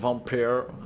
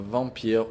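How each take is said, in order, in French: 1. Le mot est prononcé avec un son rauque et guttural. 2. Le mot est prononcé simplement, sans tension de la gorge.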